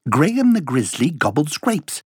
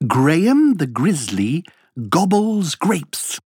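First: It is said at a fast speed. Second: It is said at a moderate speed.

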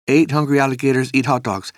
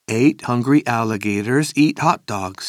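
First: It is said very fast. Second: It is said faster.

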